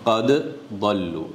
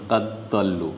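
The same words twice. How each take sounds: First: The two d sounds are kept separate. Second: The two d sounds are merged together. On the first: The speaker calls it right. "এটা correct" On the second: The speaker calls it wrong. "দুইটাকে এদগাম করে দেওয়া, এটা রং হবে"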